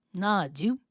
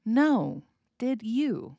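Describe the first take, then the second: First: "Nah, Jew" slurred, rising on "Jew"; run-together Southern form. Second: "No. Did you" as separate, fully sounded words; careful full form. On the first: Teacher replays the Southern reply for learners, "Nah, Jew" run together, rising. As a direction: squash no, did you into "Nah, Jew". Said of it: "we follow it up with a question". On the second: Teacher decoding the slurred reply, "No. Did you" in full words. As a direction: pronounce "No. Did you" clearly, word by word. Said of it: "which is you". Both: Shown as a demonstration.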